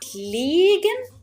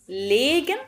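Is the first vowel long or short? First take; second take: long; short. First: The first vowel is held long. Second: The first vowel is kept short. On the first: "ماشية على قاعدة ليجن، يبقى فيه إيه؟ مد" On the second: "ليجن كده مفيش إيه مد"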